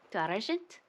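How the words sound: It is said with a put-on French accent. "Let's see if I can do it"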